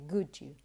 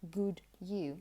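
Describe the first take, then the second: First: The two words are blended together. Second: The two words are said separately. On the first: "they tend to say good you" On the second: "or when they say good you. No"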